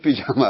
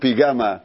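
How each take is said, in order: First: The middle consonant is j. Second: The middle consonant is g. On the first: The speaker calls it right. "לא יודעים להגיד פיג'מה" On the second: The speaker calls it wrong. "הם אומרים פיג'מה"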